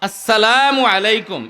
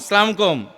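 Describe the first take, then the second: First: The greeting is fully and clearly articulated. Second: The greeting is clipped and slurred together. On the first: The speaker calls it right. "স্পষ্ট করে" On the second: The speaker calls it wrong. "এরকম সালাম না"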